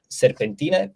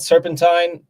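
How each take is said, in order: First: The word is pronounced with Romanian sounds. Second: The word is pronounced with English sounds. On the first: The speaker calls it right. "it's in Romanian actually" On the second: The speaker calls it wrong. "People tend to pronounce like that"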